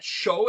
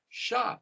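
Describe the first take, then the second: First: The syllable ends with an 'oh' vowel. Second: The syllable ends with an 'ah' vowel. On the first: The speaker calls it wrong. "Not show, it's not pronounced show" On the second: The speaker calls it right. "it's Shah"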